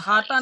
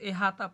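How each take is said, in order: First: The first vowel is an open 'a'. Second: The first vowel is a short 'i'. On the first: The speaker calls it wrong. "अहाता नहीं" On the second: The speaker calls it right. "उसको इहाता पढ़िए, बेकस्र"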